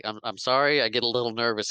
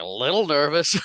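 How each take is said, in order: First: Mildly flustered imitation of an apology; sheepish apology. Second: High, loud mock disbelief; incredulous echo. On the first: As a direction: stammer a small excuse. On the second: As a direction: throw LITTLE back as a stunned question. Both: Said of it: "He's like".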